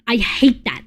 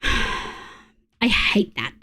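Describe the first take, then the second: First: Said in the usual way. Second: Exhaled on a sigh, slow and airless; fed-up sigh under the breath; sighed, breathless. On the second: Real, not acted. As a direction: let it out as a tired sigh. Frustrated at mod override.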